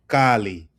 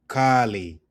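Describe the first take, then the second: No difference in how they are said.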